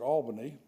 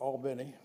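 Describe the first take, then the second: First: It is said the speaker's own usual way. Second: It is said the way local people say it. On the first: This is how the speaker says the name. "I would pronounce it" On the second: This is how the people there say the name. "I think they call it"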